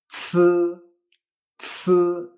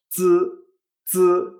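First: Z as a ts with a long puff of air; z said as aspirated "tsʰ". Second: Z as a buzzed ts with no puff; z said as unaspirated "tsz"; Z without air. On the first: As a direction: push a burst of air out on z. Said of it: "sí que sale aire". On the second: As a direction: keep the air back on z, vibrate the throat. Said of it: "sin sacar aire". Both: Shown as a demonstration.

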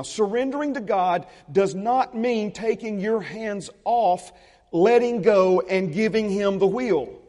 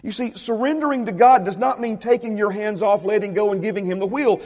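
First: Slow, weighty line, every phrase set apart; preacher slowing down to stress the point; slow and deliberate. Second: Said in the usual way. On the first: Shown as a demonstration. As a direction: lay it down slowly so they hear each word. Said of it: "Listen very carefully to this now". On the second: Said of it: "That's not giving it to God".

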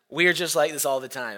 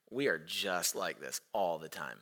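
First: Said in the usual way. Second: Low, soft dawning awareness; hushed realization. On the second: Retold or imitated. Preacher recalling his realization amid the tantrum, hushed and low. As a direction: drop down low and quiet, as if to yourself.

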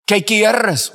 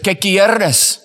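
First: "¿Qué quieres?" said higher and louder, called out; loud question. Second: Said in the usual way. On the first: Shown as a demonstration. Preacher calling up to the prisoner at the window, raised voice. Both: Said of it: "Say it out loud".

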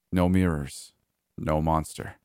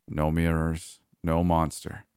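No difference in how they are said.

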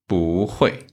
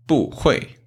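First: 不 rising in second tone before falling 会. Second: 不 falling in fourth tone before 会, two falls; wrong fourth-tone 不. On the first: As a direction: let 不 climb, then drop on 会. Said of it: "it changed to second tone". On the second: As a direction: drop 不 from high, then drop 会 too. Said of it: "it's wrong". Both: Shown as a demonstration.

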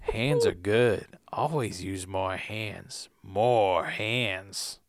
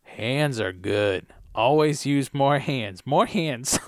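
First: Put-on slow, soft, crazed old man; crazier old man. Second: Put-on slow, lower creepy old man; a hint of a creepy old man. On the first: Redone old man line, crazier, slow and soft. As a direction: channel crazy, low and slow. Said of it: "make your eyes crazy like that". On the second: Old man answering the helper, slow and creepy. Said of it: "Old Man Cotton Ball says".

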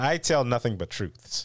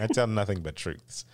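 First: Mock earnest. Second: Laughing. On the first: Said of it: "trying not to laugh". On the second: Acted.

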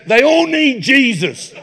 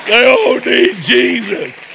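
First: Slow, high mock-pious voice; drawn-out imitation of the friend's pious line; mimicking friend. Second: Slow, loud, high repeat of the friend's line; louder mock repeat. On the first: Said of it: "He goes". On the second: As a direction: belt it out again, slower and bigger.

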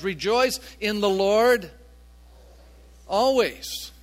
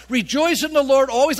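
First: Said in the usual way. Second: "Rejoice in the Lord always" louder and higher, driven straight through; emphatic repetition. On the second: Shown as a demonstration. Preacher repeating Paul's command, "Rejoice in the Lord always" said loud and emphatic. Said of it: "He's trying to emphasize this".

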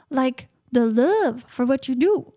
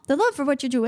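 First: Slow, weighted "love" in "the love for what you do"; stress on love. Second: Said in the usual way. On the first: Real, not acted. Telling the host what matters, slow with "love" stressed. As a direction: lean on "love" and draw the line out slowly.

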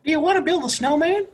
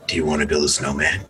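First: High, giggling through the line; laughing pickup line. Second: Low, sinister horror-villain line; Jigsaw voice. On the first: Acted. Teasing the friends with the pickup line, high and giggling. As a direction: try to say it without cracking up. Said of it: "I'll do it like that". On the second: Pretend. Imagining approaching a random girl, low and sinister. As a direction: menace the stranger like a horror villain. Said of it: "not in the Jigsaw voice".

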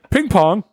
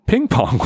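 First: Slow, higher-pitched call to an assistant; lightly acted summons; summoning call. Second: Said in the usual way. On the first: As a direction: call the name out, drawn out. [name] summons his assistant.

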